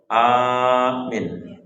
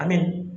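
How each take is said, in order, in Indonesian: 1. Vokal pertama panjang, yang kedua pendek. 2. Kedua vokal pendek. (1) "Kalau hanya panjang, minyak pendek" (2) "kalau hanya pendek, minyak pendek"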